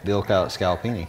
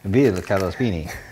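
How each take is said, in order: First: It is said in his plain American accent. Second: It is said in a put-on Italian accent.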